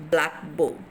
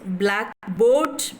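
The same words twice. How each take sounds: First: "blackboard" as BLACK-board, lower and falling; weight BLACK and let board drop; "blackboard" stressed on BLACK, closing downwards; stress on first syllable. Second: "Blackboard" with board pushed up at the end; first option of stress. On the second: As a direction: lift "Blackboard" upwards on its second half. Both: Shown as a demonstration. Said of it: "where the stress occurs on the first syllable".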